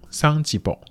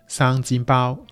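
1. 这是用上海话说的。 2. 这是用粤语说的。

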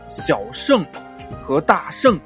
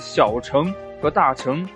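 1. “小”和“大”后面的音节声母是 sh。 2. “小”和“大”后面的音节声母是 ch。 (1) "这个应该读成小圣和大圣" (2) "可能听的最多的就是小乘佛法和大乘佛法"

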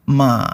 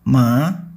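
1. Nadanya turun lalu naik lagi. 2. Nadanya naik perlahan ke atas. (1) "Ton 3 bunyinya diayun, turun ke bawah lalu naik lagi" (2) "Ton 2 bunyinya naik seperti sedang bertanya"

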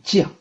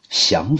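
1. 读 jiàng，是去声。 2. 读 xiáng，是阳平。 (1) "不能读成降" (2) "降服啊，使什么什么屈服"

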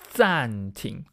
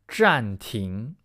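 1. 这里用的是大陆发音，开头是 zan。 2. 这里用的是这个词的台湾发音。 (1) "中国的发音是暂停，ZAN" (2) "这里我说的暂停是台湾的用法，台湾的发音"

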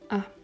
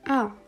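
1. Die Silbe ist kurz und leicht, unbetont. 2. Die Tonhöhe fällt stark von hoch zu tief. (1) "der fünfte Ton ist ein neutraler Ton, also keine besondere Betonung" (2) "der vierte Ton komplett fallend"

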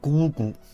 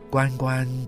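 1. 读作 gugu，是闭口音。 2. 读作 guanguan，是开口音。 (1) "古音念咕咕" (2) "关关是后来的音变成了开口音"

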